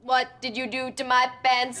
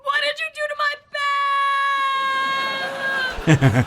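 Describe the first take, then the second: First: It is said flatly like a robot. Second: It is yelled as if falling off a cliff.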